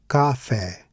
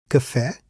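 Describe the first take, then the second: First: "café" misread as KAH-FEH with a full open a; both syllables of "café" open and accented; stressed open A. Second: "café" as kuh-FEH, first vowel reduced; reduced a in "café", open stressed ending; unstressed A. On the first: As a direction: give the a of "café" its own stress. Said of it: "I added an acute accent". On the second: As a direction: keep the a of "café" weak, stress the final é. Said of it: "Here the A should be atonu". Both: Shown as a demonstration.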